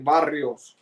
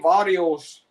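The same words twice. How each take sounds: First: The word is said with a Spanish accent. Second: The word is said with an English accent. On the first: The speaker calls it right. "I say barrios. Get it right" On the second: The speaker calls it wrong.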